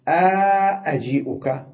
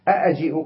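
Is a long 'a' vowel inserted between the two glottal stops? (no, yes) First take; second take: yes; no. First: A long 'a' vowel separates the two glottal stops. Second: The two glottal stops follow with no vowel between.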